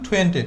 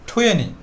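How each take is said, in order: First: The t after the n is clearly pronounced. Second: The t after the n is dropped. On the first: "previous টাইমে বলতাম টোয়েন্টি" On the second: "আরেকটু স্মার্টভাবে বলার চেষ্টা করলে সেটা হবে টুয়েনি"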